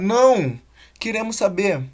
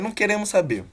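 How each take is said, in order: First: There is a pause after 'não'. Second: There is no pause after 'não'. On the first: We do want to hear more. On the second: We do not want to hear about it.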